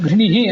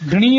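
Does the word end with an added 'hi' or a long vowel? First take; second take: added hi; long vowel. First: The word ends with a short breathy 'hi'. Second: The final vowel is drawn out long. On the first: The speaker calls it right. "ಘೃಣಿಹಿ ಅಂತ ಉಚ್ಚಾರ ಮಾಡಬೇಕು" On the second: The speaker calls it wrong. "ದೀರ್ಘವಾಗಿ ಉಚ್ಚಾರ ಮಾಡಬಾರ್ದು"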